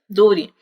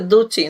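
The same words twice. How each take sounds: First: It is said in an American accent. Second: It is said in a British accent. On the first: "no americano" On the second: "Na pronúncia britânica"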